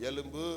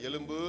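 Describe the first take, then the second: Both takes have the same delivery.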